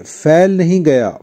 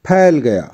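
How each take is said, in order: First: It starts with an f sound. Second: It starts with an aspirated p sound. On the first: The speaker calls it wrong. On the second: The speaker calls it right.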